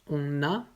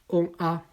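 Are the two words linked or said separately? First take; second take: linked; separate. First: The final consonant links into the next word. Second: The words are said separately, with no linking. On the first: The speaker calls it right. "après avec la liaison" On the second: The speaker calls it wrong. "d'abord sans la liaison"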